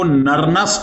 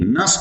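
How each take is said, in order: First: The inner n sound is pronounced. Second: The inner n sound is left out. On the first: The speaker calls it wrong. "इसमें एन silent है, इसको नरनस्ट नहीं" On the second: The speaker calls it right. "नस्ट equation कहते हैं"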